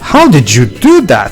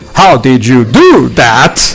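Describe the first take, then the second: First: It is said with lively, surprised energy. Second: It is said flatly, with no surprise. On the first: The character is trying to show amazement. "delivers that with gusto ... trying to sound surprised" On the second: The character shows no real amazement. "He literally delivers it like that"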